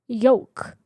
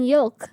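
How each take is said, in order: First: The L sound is left out. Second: The L sound is clearly pronounced. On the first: The speaker calls it wrong. "That's not how you say it" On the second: The speaker calls it right. "I'm pronouncing the L"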